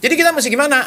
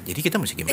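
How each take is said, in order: First: The voice is pitched high. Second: The voice is pitched low. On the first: The speaker calls it wrong. "Tinggi biasanya nadanya. ... contoh ngomongnya gini loh" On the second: The speaker calls it right. "Itu beda sekali dengan"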